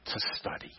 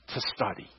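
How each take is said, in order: First: Whispered. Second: Hushed. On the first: Preacher chiding believers who won't study, whispered. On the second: Preacher stressing study to the congregation, hushed and low. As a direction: drop to a low, soft "to study". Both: Real, not acted.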